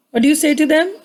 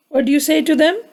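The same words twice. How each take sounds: The two takes are said the same way.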